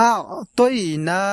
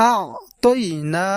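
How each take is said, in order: Both takes have the same delivery.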